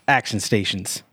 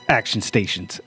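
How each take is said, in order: The two takes are said the same way.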